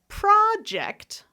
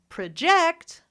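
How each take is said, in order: First: The stress is on the first syllable. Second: The stress is on the second syllable. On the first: It is used as a noun. "that's the noun" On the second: It is used as a verb. "that's a verb"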